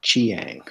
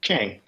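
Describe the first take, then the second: First: Chiang said as two syllables, "chee-ANG"; tentative "chee-ang" for Chiang; unsure pronunciation. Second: Chiang said as one syllable, "chang"; corrected pronunciation. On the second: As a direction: repeat Chiang as a quick single-beat "chang". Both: Real, not acted. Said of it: "Do you know how to pronounce that".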